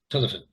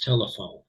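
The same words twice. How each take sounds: First: The last vowel is a weak schwa. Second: The last vowel is a long o. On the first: The speaker calls it wrong. "this one would be schwa too" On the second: The speaker calls it right. "turns this vowel into the uh, long vowel sound"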